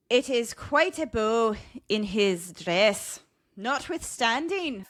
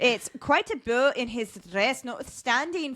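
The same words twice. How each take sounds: First: Slow, Scottish-sounding stab at Irish; attempted Irish accent. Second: Lilting attempt at Irish; improved Irish accent. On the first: Host reading an old leprechaun description, attempted Irish accent. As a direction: read it slowly in a shaky Irish-Scottish accent. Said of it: "we're doing a Scottish accent". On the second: Host rereading the leprechaun quote, improved Irish accent. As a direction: read it with a rising Irish lilt. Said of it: "try to read this quote again".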